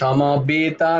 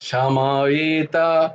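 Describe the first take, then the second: First: The consonant is a 'b' with lips together. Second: The consonant is a 'w' with lips apart. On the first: The speaker calls it wrong. "এ এ সামাবেতা নয়" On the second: The speaker calls it right. "সংস্কৃতে ওয়া হয়"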